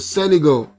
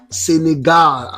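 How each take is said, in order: First: It is said with an ordinary English pronunciation. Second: It is said with a French pronunciation.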